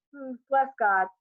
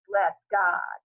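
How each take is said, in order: First: Mildly dry, doubting echo; a little dryly. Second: Gushing neighbor. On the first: Mama doubting the blesser, a touch dry. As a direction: echo it without believing a word. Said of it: "a little dryly". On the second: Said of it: "She mugs with delight". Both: A narrator's reading.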